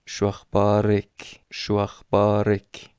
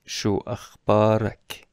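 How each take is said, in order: First: شو اخبارک ending in "ek", slow and deliberate; kasra for a woman. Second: شو اخبارک ending in "ak", slow and deliberate; fatha for a man. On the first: Teacher showing students the feminine ending, slowly. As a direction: say شو اخبارک as "shu akhbarek". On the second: Teacher showing students the masculine ending, slowly. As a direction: say شو اخبارک with an open a before k. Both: Shown as a demonstration.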